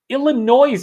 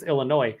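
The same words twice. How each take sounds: First: The word ends with an audible s sound. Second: The word ends without any s sound. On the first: The speaker calls it wrong. "as some folks would say, even though it's completely wrong" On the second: The speaker calls it right. "it's Illinois"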